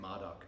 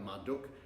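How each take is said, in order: First: The name is said the British or Australian way. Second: The name is said with a Latin-style u vowel. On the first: "I've heard some Brits and Aussies say Marduk" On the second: "I just go with the Latin pronunciation of you, like Marduk"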